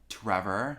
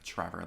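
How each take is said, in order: First: The name begins with a crisp, clear T sound. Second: The name begins with a CH-like sound. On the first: "really enunciating the T" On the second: "like with the C H sound"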